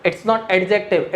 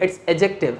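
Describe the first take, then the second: First: Adjective said with a clear D, slow; wrong pronunciation with a D. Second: Adjective said as ajective, no D; correct pronunciation, silent D. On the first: Teacher repeating the wrong way for students: adjective with a D. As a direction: sound out the D in adjective as a mistake. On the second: Teacher repeating the right way for students: adjective with a silent D. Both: Shown as a demonstration.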